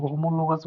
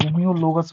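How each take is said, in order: First: "होमोलोगस" with plain mo, no y-glide; common pronunciation. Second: "होम्योलोगस" with a y-glide after the m; alternative pronunciation. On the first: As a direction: say "होमोलोगस" as ho-mo-lo-gas. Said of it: "कुछ लोग होमोलोगस बोलते हैं". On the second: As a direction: say "होम्योलोगस" as hom-yo-lo-gas. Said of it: "कुछ लोग होम्योलोगस बोलते हैं". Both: Shown as a demonstration.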